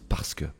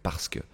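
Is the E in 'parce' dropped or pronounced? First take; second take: dropped; dropped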